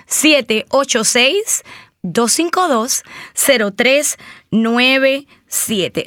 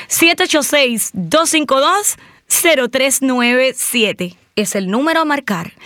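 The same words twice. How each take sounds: First: Phone number read out slowly, digit by digit; slow dictation. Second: Said in the usual way. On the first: Shown as a demonstration. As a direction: spell out the number slow so they can write it. (dictando el número despacio) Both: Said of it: "Una vez más".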